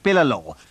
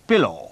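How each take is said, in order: First: The L sound is held long and doubled. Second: The L sound is short and single. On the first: The speaker calls it wrong. "आप नहीं कहते हैं पिललो" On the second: The speaker calls it right. "कहते हैं पिलो"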